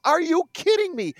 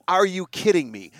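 First: Much higher, hammed-up announcer exclamation; mock announcer. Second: Said in the usual way. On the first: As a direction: parody the hyped play-by-play call. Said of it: "Guy makes a great catch with the baseball". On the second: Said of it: "What is this".

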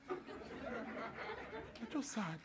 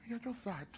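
First: Drawn-out, almost silent sad line; very slow, mock-mournful; mock sad sigh. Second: Quiet sad. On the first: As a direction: let it fade to a sigh of pity. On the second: Acted. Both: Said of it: "repeated, fading".

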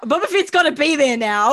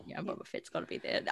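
First: Louder, emphatic insistence; loud declaration. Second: Hushed, breathy whisper. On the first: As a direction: proclaim it with gusto. Repeats line, now loud. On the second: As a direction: whisper it close to the mic. Repeats line, whispered then loud. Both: Acted.

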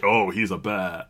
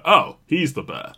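First: Low, understated "oh"; underwhelmed reaction. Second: Higher-pitched "oh" of recognition; mock realisation. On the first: Retold or imitated. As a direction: keep the realisation low and unimpressed. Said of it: "not big enough that this is like". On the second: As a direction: lift it as if the penny drops. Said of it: "too big to be like".

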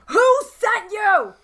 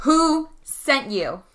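First: High, drawn-out yell at an attacker; raised, high-pitched interrogating shout. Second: Slow, measured interrogation of an attacker; deliberate, spaced-out questioning, not yet yelling; slow demand. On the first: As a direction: yell the demand, stretching the words. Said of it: "And I'm yelling". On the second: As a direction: draw out each word as a demand. Confronting a downed attacker. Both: Acted.

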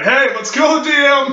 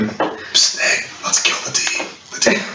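First: Loud laughing call, pitched high. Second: Unvoiced conspiratorial whisper; stage whisper. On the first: Pretend. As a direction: shout it so he hears from afar. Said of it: "I guess he's too far away". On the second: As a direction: whisper it like a secret plot. Whispers plot against the DM.

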